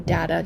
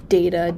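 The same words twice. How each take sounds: First: "data" said DAT-uh; first vowel of "data" open, as in "dad"; short-A pronunciation. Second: "data" said DAY-tuh; first vowel of "data" as AY; long-A pronunciation. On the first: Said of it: "or do you say data". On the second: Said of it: "do you say data". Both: Shown as a demonstration.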